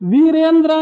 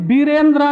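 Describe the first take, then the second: First: The word begins with a v sound. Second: The word begins with a b sound.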